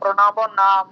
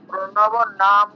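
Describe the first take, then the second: First: The final vowel after m is pronounced. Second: The final vowel after m is dropped. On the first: The speaker calls it right. "ময়ের পরে অয়ের উচ্চারণটা করতে হবে তো" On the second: The speaker calls it wrong. "প্রণব নাম নয়"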